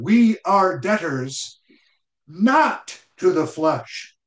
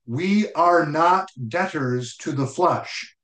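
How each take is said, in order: First: Slow "We are debtors", higher, a pause, then a weighty "not"; bold, emphatic statement. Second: Said in the usual way. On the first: Shown as a demonstration. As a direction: declare "We are debtors", hold back, then land hard on "not". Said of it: "the apostle is emphatic in how he says it". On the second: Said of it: "could have said it this way".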